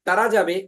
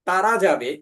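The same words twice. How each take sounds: No difference in how they are said.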